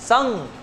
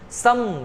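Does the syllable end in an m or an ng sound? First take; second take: ng; m. First: The syllable ends with an ng sound. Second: The syllable ends with an m sound. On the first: "संग संग संग, अंग का उच्चारण" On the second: "यहां पे हम पढ़ेंगे सम सम"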